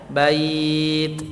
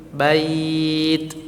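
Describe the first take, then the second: The two takes are said the same way.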